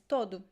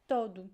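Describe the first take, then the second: Both takes have the same delivery.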